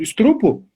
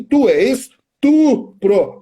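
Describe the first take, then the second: First: "estrupo" with the R moved to the second syllable; mispronounced word. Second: "estupro" drawn out slowly, syllable by syllable; corrective syllable split. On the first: Retold or imitated. Teacher quoting a pupil's slip, mispronounced "estrupo". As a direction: say "estrupo", R after the first T. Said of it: "ele vai continuar falando estrupo". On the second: Shown as a demonstration. Teacher correcting a pupil's word, slow split "es-tu-pro". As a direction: stretch "es-tu-pro", TU in the middle, R last. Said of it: "Sempre que for um estupro, tu tá no meio".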